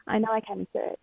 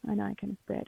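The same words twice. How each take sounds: First: Said in the usual way. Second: Softer, quicker, to herself; softer repeat. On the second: Real, not acted. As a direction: murmur it again, quickly, to herself. Repeats line softer, faster.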